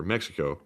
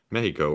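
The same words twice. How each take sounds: First: Mexico said as MEK-si-ko; English pronunciation. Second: Mexico said as MEH-hee-ko; Spanish pronunciation. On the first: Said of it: "Mexico or Mexico". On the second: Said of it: "Spanish accent". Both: Shown as a demonstration.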